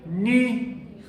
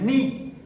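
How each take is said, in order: First: The vowel is ee said with rounded lips. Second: The vowel is a plain spread ee sound. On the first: The speaker calls it right. "ponen la boca igual, pero tratan de decir I" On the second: The speaker calls it wrong. "no es ni"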